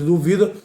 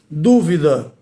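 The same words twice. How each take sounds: First: "duvida" stressed on VI, du-VI-da; stress on duvida's middle syllable. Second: "Dúvida" stressed on DÚ, DÚ-vi-da; stress on Dúvida's first syllable. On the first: Teacher conjugating the verb, "duvida" stressed on VI. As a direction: lean on the VI of "duvida". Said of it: "tem o verbo duvidar". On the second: Teacher naming the noun, "Dúvida" stressed on DÚ. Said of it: "é o substantivo". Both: Shown as a demonstration.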